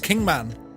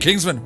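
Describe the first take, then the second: First: The name has no s sound before the m. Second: The name has an s sound before the m. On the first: The speaker calls it right. "it's actually pronounced Kingman" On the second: The speaker calls it wrong. "I thought it said Kingsman"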